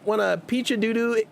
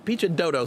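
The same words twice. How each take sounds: First: Misreading Doodoo as doo-doo; misread name. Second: Dodo said like the bird, doh-doh; fixing it to Dodo, long o sounds; corrected name. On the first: Streamer misreads a viewer's name Doodoo in chat, says doo-doo. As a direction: Doodoo said like baby-talk doo-doo. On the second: Streamer corrects viewer's name to Dodo, said doh-doh. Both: Shown as a demonstration.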